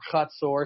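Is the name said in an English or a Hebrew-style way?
Hebrew-style. It is said with Hebrew-style sounds. "if you want to be fancy schmancy"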